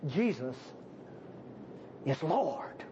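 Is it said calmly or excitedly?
calmly. It is said with calm, settled conviction.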